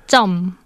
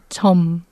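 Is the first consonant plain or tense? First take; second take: tense; plain. First: The first consonant is tense, like a doubled sound. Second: The first consonant is plain, a single soft sound. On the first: The speaker calls it right. "people always pronounce it as 점" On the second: The speaker calls it wrong. "not 점"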